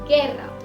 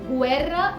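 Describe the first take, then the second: First: The u is silent after the g. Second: The u is sounded as 'w' after the g. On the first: The speaker calls it right. "हमने इसे बुलाया है गेर्रा" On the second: The speaker calls it wrong. "अब इस वर्ड को हमने गुएर्रा नहीं बुलाया है"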